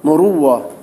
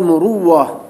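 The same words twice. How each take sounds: First: A doubled w sound replaces the glottal stop. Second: The same.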